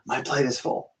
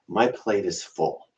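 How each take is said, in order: First: It sounds happy and excited. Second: It sounds weary and overwhelmed.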